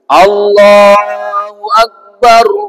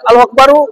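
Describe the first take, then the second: First: The final r stops with no vowel after it. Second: The final r is followed by a short vowel. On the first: The speaker calls it right. "Dijazam, disukun" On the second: The speaker calls it wrong. "boleh enggak? Boleh. Padahal tidak sunnah"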